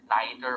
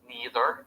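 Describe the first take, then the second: First: It is said in a non-standard-American way. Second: It is said in the standard American way. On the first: "You do not pronounce it neither" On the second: "we pronounce them using the standard American English"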